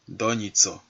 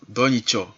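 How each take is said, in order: First: The middle consonant is a 'ts' sound. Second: The middle consonant is a 'ch' sound. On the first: "les lettres T et S, comme dans Nitso" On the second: "parfois on les prononce Ch"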